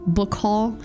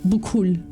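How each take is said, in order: First: It is said as two clear words. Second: It is run together as one word. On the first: The speaker calls it right. "how it's supposed to be pronounced" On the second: The speaker calls it wrong. "they'll say like uh uh like bukul"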